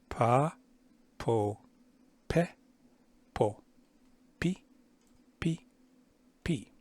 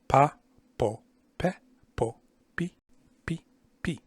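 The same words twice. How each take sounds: First: The syllables are said at a slower pace. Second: The syllables are said at a faster pace.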